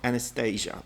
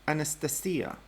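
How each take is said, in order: First: The name is pronounced a non-Russian, English way. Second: The name is pronounced the Russian way. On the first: The speaker calls it wrong. "It's not Anastasia" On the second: The speaker calls it right. "in Russian seems to be pronounced Anastasia"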